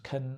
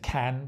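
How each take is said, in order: First: The word has a weak, reduced vowel. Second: The word has a full, clear vowel. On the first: "becomes can" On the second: "notice the can becomes"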